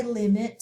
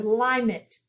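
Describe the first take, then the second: First: Said in the usual way. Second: "limit" said wrongly as LIE-mit, with a long I. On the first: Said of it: "So we want it to say limit". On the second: Shown as a demonstration. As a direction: say "limit" with its first vowel like "lime". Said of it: "if we did the division line behind the first vowel".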